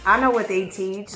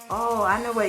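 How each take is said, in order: First: It sounds suspicious and accusing. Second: It sounds light and friendly.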